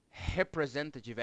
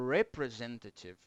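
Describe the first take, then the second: First: Representative with a Brazilian throaty H sound for the R; wrong Portuguese R. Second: Representative with a soft English R, said quietly. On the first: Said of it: "R no inglês não é". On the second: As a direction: say representative with the English R, tongue curled. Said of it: "é". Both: Shown as a demonstration.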